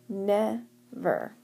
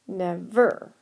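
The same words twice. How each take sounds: First: The stress is on the first syllable. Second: The stress is on the second syllable. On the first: The speaker calls it right. "we tend to emphasize the first syllable" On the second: The speaker calls it wrong. "try emphasizing the second syllable"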